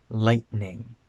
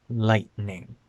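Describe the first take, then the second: No difference in how they are said.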